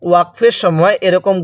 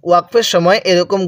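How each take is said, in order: No difference in how they are said.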